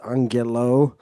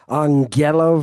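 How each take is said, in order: First: The stress is on the last syllable. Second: The stress is not on the last syllable.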